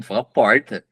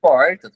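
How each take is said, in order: First: "fala porta" repeated as a mocking command; "fala porta" said insistently, mocking the corrector; mocking pronunciation. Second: "Porta" called out higher and louder, mocking the correction; "Porta" said high and loud with a strong r, mocking; mocking pronunciation. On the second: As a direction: bark out "Porta" like a fussy corrector.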